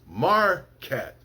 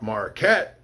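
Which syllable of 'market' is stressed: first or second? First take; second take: first; second. First: The stress is on the first syllable. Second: The stress is on the second syllable. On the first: The speaker calls it right. "I'll put the mar in capitals to show that that's the the where the stress is" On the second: The speaker calls it wrong. "It's not market"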